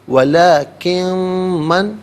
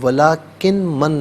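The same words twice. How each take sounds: First: The n merges into a long nasal m. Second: The n is said clearly before the m. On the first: The speaker calls it right. "नून साकिन को मीम के साथ मिलाकर मीम की आवाज़ को गुन्ने के साथ अदा करेंगे" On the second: The speaker calls it wrong. "नहीं"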